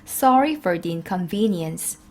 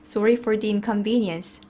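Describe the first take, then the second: First: The words are said with stronger, punchier stress. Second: The words are said with light, plain stress.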